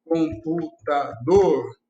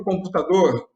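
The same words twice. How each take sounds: First: Computador said slowly, broken into com-pu-ta-dor; syllable by syllable. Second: Said in the usual way. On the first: Shown as a demonstration. Teacher showing students where the stress falls in computador, slow syllable by syllable. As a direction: sound out com-pu-ta-dor, each syllable apart, lower.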